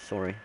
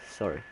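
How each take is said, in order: Both takes have the same delivery.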